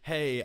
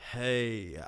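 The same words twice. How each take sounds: First: It is said at normal pitch and speed. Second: It is said very low and slowed down. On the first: "a song that's played at a normal speed" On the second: "take the pitch down very, very low"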